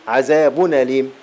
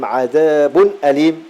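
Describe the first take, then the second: The two takes are said the same way.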